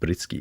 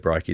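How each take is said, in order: First: The name is said the Polish way. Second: The name is said the Australian way.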